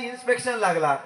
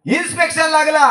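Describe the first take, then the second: First: Said in the usual way. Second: Higher and louder, stretching लागला; emphatic repeat. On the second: Shown as a demonstration. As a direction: announce it to the crowd. Storyteller repeats line for emphasis.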